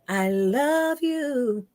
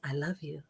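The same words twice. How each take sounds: First: The word "I" is drawn out, ringing. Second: The word "I" is short and plain.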